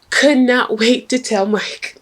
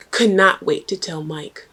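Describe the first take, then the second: First: Higher, slower, laughing through it; laughing emphasis. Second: Said in the usual way. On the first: Real, not acted. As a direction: relish the gossip with a laugh.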